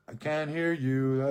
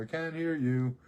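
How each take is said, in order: First: Loud, slow "I can't hear you"; mock shout. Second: Loud call over the shoulder. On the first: Telling the whispering man he can't hear him, loud and slow. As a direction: call it out slowly, loud. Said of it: "I'm like". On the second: Retold or imitated. Walking out the door, calling back loudly. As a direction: shout it while leaving. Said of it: "I'm walking out the door".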